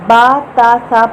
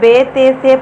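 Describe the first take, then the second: First: Each letter name ends in an 'a' vowel. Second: Each letter name ends in an 'e' vowel. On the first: This is the Arabic way of naming the letters. The speaker calls it right. "बा ता सा पढ़ना है अरबी में" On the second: This is the Urdu way of naming the letters. The speaker calls it wrong. "अब कुछ लोग इसको बे ते से पढ़ते हैं, वो नहीं पढ़ेंगे ऐसे आज के बाद"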